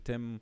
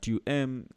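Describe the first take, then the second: First: The pronoun's vowel is dropped, said quickly as one syllable. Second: The pronoun is said in full before the verb. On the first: "just to make it sound very fast" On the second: "tu aimes is allowed"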